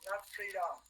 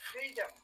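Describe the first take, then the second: First: The last syllable has a full, unreduced vowel. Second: The last syllable has a reduced schwa vowel. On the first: The speaker calls it wrong. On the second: The speaker calls it right.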